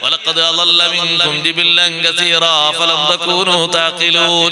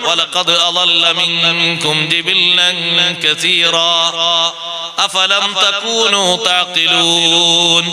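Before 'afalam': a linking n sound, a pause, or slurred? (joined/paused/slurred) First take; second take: slurred; paused. First: Words run together with neither pause nor n. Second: A breath pause comes before 'afalam'. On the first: The speaker calls it wrong. "തെറ്റായ ഓത്തിന് പേരുന്ന കൂട്ടി കുഴമ്പിച്ചത്" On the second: The speaker calls it right. "നിർത്തുമ്പോ ശ്വാസം വിടണല്ലോ"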